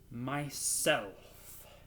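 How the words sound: It is said loudly, clearly and cheerfully.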